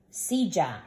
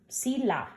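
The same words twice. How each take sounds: First: Silla said with a J-like sound for the double L, SEE-ja; correct pronunciation. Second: Sila said with a plain L sound, SEE-la; the wrong way: sila with a single light L; wrong pronunciation. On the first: Teacher correcting students: Silla with ll said like J. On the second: Teacher showing students the wrong way: sila with a plain L. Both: Shown as a demonstration. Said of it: "Nope, it's not a sila".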